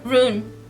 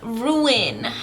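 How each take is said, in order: First: The word sounds like 'rune'. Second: The word sounds like 'ruin'. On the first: The speaker calls it right. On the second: The speaker calls it wrong.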